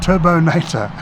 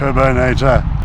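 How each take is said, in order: First: It is said in a normal voice. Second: It is said in a deep voice.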